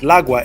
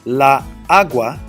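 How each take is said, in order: First: It is said fast, like one word. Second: It is said slowly, as two words.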